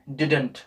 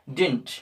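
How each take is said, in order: First: It is said fuller, in a British accent. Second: It is said short, in an American accent. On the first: "Britishers कैसे बोलते हैं" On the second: "American language में थोड़ा और short में कर देते हैं"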